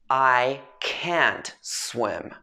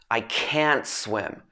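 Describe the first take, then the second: First: The sentence is spoken very slowly and carefully. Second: A short pause comes before a stressed can't. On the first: "I'm speaking really slowly here" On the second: "there would be a short pause between the I and the can't"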